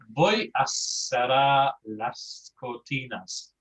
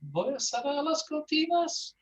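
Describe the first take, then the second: First: The voice falls at the end as a statement. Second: The voice rises at the end as a question.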